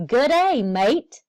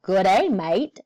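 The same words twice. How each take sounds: First: A loud, bright, high "Good day, mate" with the "mate" said as may-t; cheery greeting. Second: A mild Australian twang with "mate" said as mite; light Australian accent. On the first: Acted. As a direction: call out hello to the class like a tour guide landing. Cheery greeting on arriving in Australia. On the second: Retold or imitated. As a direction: imitate an Australian saying hello to a friend, lightly. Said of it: "They say things like".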